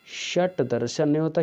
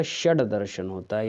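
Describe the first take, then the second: First: षट with a hard ट sound; wrong form said. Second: षड with a ड sound; correct form. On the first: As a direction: says षट दर्शन, ending षट in ट. (गलत उच्चारण: षट दर्शन) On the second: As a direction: says षड दर्शन, ending षड in ड. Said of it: "यहाँ पर डा लगेगा". (सही उच्चारण: षड दर्शन) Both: Shown as a demonstration.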